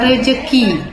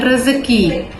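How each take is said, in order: First: The middle consonant is a j sound. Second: The middle consonant is a z sound. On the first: The speaker calls it wrong. "huruf Z berubah menjadi huruf J" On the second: The speaker calls it right. "bukan rezeki"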